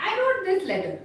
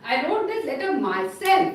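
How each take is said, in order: First: Said in the usual way. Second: "I wrote this letter myself" with a firm push on "myself"; stress on myself. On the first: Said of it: "It was a casual sentence". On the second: Shown as a demonstration. Teacher showing students how "myself" adds emphasis. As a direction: lean on "myself" to give the sentence force. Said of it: "that gives a little strength".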